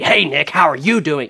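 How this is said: It is said with a loaded, pointed tone.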